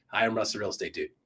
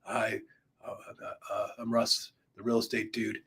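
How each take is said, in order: First: Said in the usual way. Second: Groggy, low, soft mumble with hesitations; just woke up. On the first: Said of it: "like you normally talk". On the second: Shown as a demonstration. Coach demoing a first video intro, groggy after a nap. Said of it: "like you just woke up from a nap".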